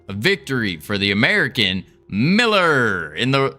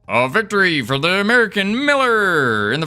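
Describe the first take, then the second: First: It is said in an ordinary speaking voice. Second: It is said in a put-on announcer voice.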